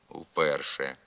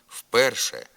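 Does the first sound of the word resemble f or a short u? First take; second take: short u; f. First: The first sound is a short non-syllabic u. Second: The first sound is a voiceless f. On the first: The speaker calls it right. "Треба говорити" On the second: The speaker calls it wrong. "є ненормативною"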